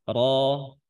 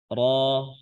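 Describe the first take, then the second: No difference in how they are said.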